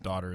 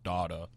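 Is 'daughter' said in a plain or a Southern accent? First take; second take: plain; Southern. First: The word is said in a plain accent. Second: The word is said in a Southern drawl. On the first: "pronounce the word daughter" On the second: "as daughter"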